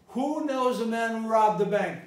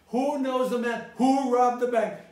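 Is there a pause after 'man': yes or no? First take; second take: no; yes. First: It runs as one phrase without a break. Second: It splits into two phrases after 'man'. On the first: The speaker calls it wrong. "I'm not never going to say that" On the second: The speaker calls it right. "who knows the man? One phrase. Who robbed the bank? Another phrase"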